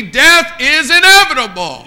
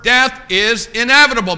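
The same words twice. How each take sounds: First: High, loud pulpit proclamation; preacher's cry. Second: Said in the usual way. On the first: Real, not acted. Preacher warning sir and ma'am in the pews, loud preacher's cry. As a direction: drive it home at full voice. Repeats it louder to the congregation.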